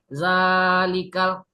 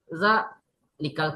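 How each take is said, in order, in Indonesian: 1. Vokal panjang itu ditahan sepenuhnya. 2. Vokal panjang itu dipotong pendek dan terputus-putus. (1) "kita membacanya panjang nih" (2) "karena sinyalnya putus-putus"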